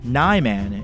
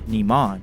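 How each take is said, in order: First: The first vowel is an active 'eye' sound. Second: The first vowel is a soft 'ee' sound. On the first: The speaker calls it wrong. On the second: The speaker calls it right.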